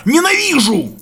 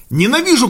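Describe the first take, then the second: First: Higher, near-shouted outburst; almost shouting. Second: Said in the usual way. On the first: A narrator's reading. Young man raging at being taught how to live, near-shout. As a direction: burst out, just short of a yell. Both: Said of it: "Почти крикнул".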